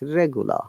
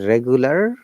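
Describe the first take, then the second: First: The final R is silent. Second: The final R is clearly pronounced. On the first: The speaker calls it right. "R is silent" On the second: The speaker calls it wrong. "It's not a regular in American British English"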